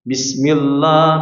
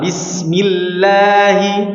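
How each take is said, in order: First: The letters sound heavy and thickened. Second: The letters sound light and thin. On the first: The speaker calls it wrong. "ini enggak sempurna... akan menjadi penebalan suara" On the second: The speaker calls it right. "Tipiskan dengan sempurna"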